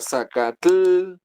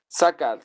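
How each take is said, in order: First: The ending is a full, clearly pronounced tl. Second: The ending is a soft, barely released t. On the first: The speaker calls it wrong. "la terminación T L no se pronuncia Zacatl" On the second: The speaker calls it right. "el sonido original que es más suave"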